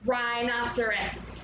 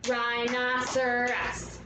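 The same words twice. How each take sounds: First: Said in the usual way. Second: "Rhinoceros" slowly drawn into four beats; syllable by syllable. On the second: Shown as a demonstration. Teacher claps out a long word, syllable by syllable. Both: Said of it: "four syllables in rhinoceros".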